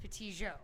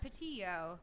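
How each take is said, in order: First: The double L is sounded like a J. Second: The double L has a soft sound, not J. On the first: "the double L here is pronounced as a J" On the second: "it's not"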